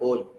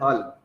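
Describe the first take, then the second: First: The vowel is a rounded 'oh' sound. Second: The vowel is an open 'aw' sound. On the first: "They call it whole" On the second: "do not pronounce hall word H double L, hall as a hall"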